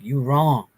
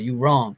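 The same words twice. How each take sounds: First: It sounds pained, almost like a confession. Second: It sounds like a defiant denial.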